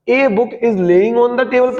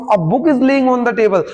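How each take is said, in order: First: Slow reading, "A" said as "ay"; wrong letter-name article. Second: Slow reading, "A" said as "uh"; weak article sound. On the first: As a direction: read "A book" as "ay book". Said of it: "पढ़ूं या फिर अब पढ़ूं". ("A" को "ए" पढ़ें, धीरे-धीरे) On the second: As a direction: read "A book" as "uh book". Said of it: "आ पढ़ना है". ("A" को "अ" पढ़ें, धीरे-धीरे) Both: Shown as a demonstration.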